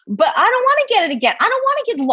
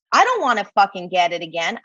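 First: Insistent. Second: Said in the usual way. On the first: Real, not acted. Repeats the line with more force.

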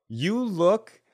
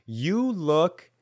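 No difference in how they are said.

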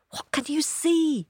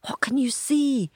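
First: High eager voiced question. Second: Excited hushed whisper; eager whisper. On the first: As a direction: ask it again, higher and eager. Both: A narrator's reading. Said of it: "asked the others eagerly".

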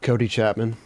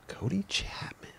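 First: Said in the usual way. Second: Slow hushed whisper, rising. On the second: Real, not acted. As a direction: breathe the name in awe. Name said then repeated whispered.

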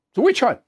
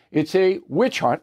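First: Higher, punchy mock quote of a politician's slogan; quoting Trump. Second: Said in the usual way. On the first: Host echoing Trump's slogan, higher mock punch. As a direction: fire the slogan off like Trump on a rally stage. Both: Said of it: "Donald Trump said".

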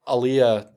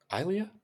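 First: Aliyah said as uh-LEE-uh, falling; unsure pronunciation try. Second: Aliyah? said as eye-LEE-uh, rising as a question; Aliyah? opened with eye, eye-LEE-uh, unsure; second pronunciation try. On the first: Groping for the name of the swell, Aliyah said uh-LEE-uh. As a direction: Aliyah with a short first vowel, uh-LEE-uh. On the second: Trying again for the swell's name, Aliyah? as eye-LEE-uh. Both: Shown as a demonstration. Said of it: "What are they called again?".

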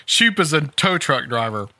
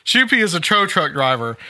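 First: Shoup said as one syllable, no "ee" ending. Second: Shoupy with an added "ee" ending; two-syllable Shoupy. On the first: Newsreader reads the tow truck driver's name, Shoup as one syllable. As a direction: read "Shoup" to end on the p sound. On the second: Reader corrects the driver's name, Shoupy with an "ee" ending. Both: Shown as a demonstration. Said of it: "I think it's pronounced Shoupy".

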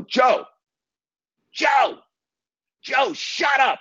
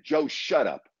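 First: Retold scream over the speakerphone; screaming at him. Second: A quieter, clipped "Joe, shut up"; retelling the order with only a bit of heat; half-hearted retold snap at the caller; mild mock yell. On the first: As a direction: shriek "Joe, Joe, Joe, shut up" to stop the caller. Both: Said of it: "I scream at him".

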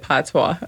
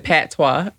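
First: Patois with an open ah, pah-twah; the right way. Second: Patois with a flat short a as in pat, pat-wah; mimicking the wrong way. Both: Shown as a demonstration. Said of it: "You said patois, and I said patois".

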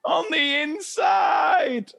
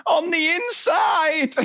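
First: Much higher, very slow wail; mock sobbing kid. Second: Much higher, slow wailing cry; mock sobbing kid. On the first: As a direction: drag it out like a wailing child. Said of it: "I was like". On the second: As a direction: wail it like a heartbroken child. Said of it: "And he's".

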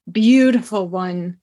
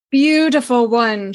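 First: Purring. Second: "beautiful one" purred a touch brighter and fuller; purring. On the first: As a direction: let "Beautiful one" purr out, lingering. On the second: Lady purrs again over the tiger, lifted purr. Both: Acted. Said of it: "she purred".

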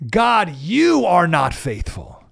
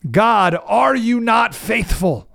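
First: "God, you are not faithful." slow, flat, final like an accusation; grumbling statement. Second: "God, are you not faithful?" slow, pleading, rising as a real question; lament as a question. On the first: Pastor demonstrating a grumbler's accusation, slow and final. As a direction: state it as a closed verdict. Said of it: "have an exclamation point". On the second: Pastor demonstrating a lament to listeners, slow and questioning. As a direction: ask it like an honest cry to God. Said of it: "often ends with a question mark". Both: Shown as a demonstration.

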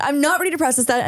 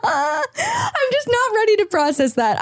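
First: Said in the usual way. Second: High, slow, laughing through it; words squeezed out through laughter. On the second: Real, not acted. Laughing at her own joke.

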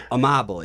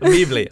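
First: Amably said as uh-MAH-buh-lee, stress on the second syllable; correct pronunciation. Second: A Meebly said as uh-MEE-blee, long ee; wrong pronunciation. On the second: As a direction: mangle the name as A Meebly. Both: Shown as a demonstration. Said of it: "you're butchering my last name".

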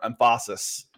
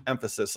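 First: "emphasis" stressed on the second syllable, em-PHA-sis; wrong-syllable stress. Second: Said in the usual way. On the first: Shown as a demonstration. Joking with co-host about the Fs, "emphasis" wrongly stressed as em-PHA-sis. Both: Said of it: "You put the emphasis on the wrong syllable".

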